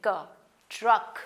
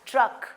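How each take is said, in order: First: क then truck drawn out slowly with a rise; slow sounding out. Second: Said in the usual way. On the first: Shown as a demonstration. Teacher showing how c and k make one sound. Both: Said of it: "एक ही sound बनेगी".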